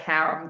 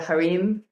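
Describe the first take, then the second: First: It is pronounced the way Americans say it. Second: It is pronounced the way other countries say it. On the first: "here in America, he called it harem" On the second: "in other countries, they call it the harem"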